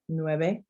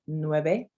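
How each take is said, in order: No difference in how they are said.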